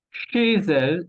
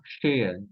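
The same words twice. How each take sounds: First: Chez elle joined with a z; liaison. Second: Chez elle with silent z; chez, then elle, unlinked; missing liaison. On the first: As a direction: link "chez elle" as ché-zelle. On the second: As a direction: split "chez elle", no z between. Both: Shown as a demonstration. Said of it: "y no chez elle".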